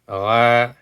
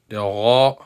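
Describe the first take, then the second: First: The letter is said light, without a full mouth. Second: The letter is said heavy, with a full mouth. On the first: The speaker calls it wrong. "But that is not the correct and right way to pronounce them" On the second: The speaker calls it right. "You see how I'm pronouncing it? I'm making it heavy"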